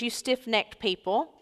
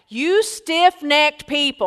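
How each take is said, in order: First: The phrase is said in a calm, mild way. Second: The phrase is said in a forceful, heated way. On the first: The speaker calls it wrong. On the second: The speaker calls it right.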